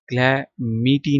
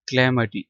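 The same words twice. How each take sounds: First: कैलेमिटी with a long, stressed "mee": kla-MEE-tee; mispronounced. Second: कैलेमिटी as kuh-LAM-uh-tee, short unstressed "muh"; correct pronunciation. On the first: Teacher showing students how not to read it, mispronounced कैलेमिटी with long MEE. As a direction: draw out the middle of कैलेमिटी into a slow "MEE". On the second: Teacher modelling the word for students, correctly pronounced कैलेमिटी, kuh-LAM-uh-tee. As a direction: stress "LAM" in कैलेमिटी, keep the ending short. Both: Shown as a demonstration. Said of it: "कैलेमिटी नहीं पढ़ना".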